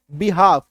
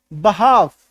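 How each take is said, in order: First: बिहाफ opening on "bi", not "ba"; common mispronunciation. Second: बहाफ opening on "ba", not "bi"; correct pronunciation. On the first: Teacher quoting how many people read it, "bi-haaf". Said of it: "कई सारे लोग इसको क्या पढ़ते हैं". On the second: Teacher answering with the correct reading, "ba-haaf". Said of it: "इसका correct उच्चारण क्या है". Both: Shown as a demonstration.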